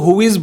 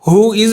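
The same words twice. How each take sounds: First: The two words are linked together. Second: The two words are said separately. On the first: The speaker calls it right. "वो इसको हु इज बोलते हैं" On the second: The speaker calls it wrong. "English native हु इज नहीं बोलते"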